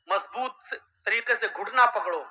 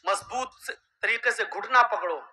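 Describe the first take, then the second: Both takes have the same delivery.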